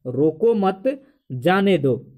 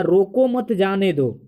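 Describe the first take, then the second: First: Long pause after "मत" before "जाने दो"; comma pause. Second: Said in the usual way. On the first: Shown as a demonstration. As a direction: slowly split it: "रोको मत", pause, "जाने दो". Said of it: "मतलब comma दिया गया है". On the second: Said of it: "व्याकरण में कहता है".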